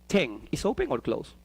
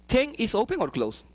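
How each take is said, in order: Both takes have the same delivery.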